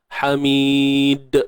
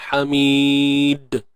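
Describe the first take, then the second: The two takes are said the same way.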